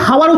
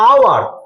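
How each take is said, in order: First: The word begins with an h sound. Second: The word begins with a vowel sound. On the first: The speaker calls it wrong. "হাওয়ার উচ্চারণ করবি না" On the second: The speaker calls it right. "তুই কি উচ্চারণ করবি, আওয়ার"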